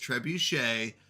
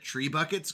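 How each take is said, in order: First: The word ends with a 'shay' sound. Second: The word ends with a 'buckets' sound. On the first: The speaker calls it right. "the proper way to say it is trebuchet" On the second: The speaker calls it wrong. "we always called it tree buckets growing up"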